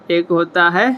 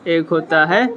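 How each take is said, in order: Both takes have the same delivery.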